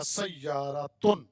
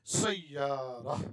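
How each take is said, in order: First: سیارتن read slowly with a clear t and tun; full case ending. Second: سیارہ read slowly, stopping on a, no ta; pausal form. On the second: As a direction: pause on سیارہ and drop the ending. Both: Shown as a demonstration. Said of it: "ایسے الفاظ پر رک کے پڑھیں".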